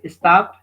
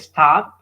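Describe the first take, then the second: First: An extra vowel is added before the s. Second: It starts directly with the s sound. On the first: The speaker calls it wrong. "avoid adding an extra vowel at the beginning" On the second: The speaker calls it right. "Instead of saying stop"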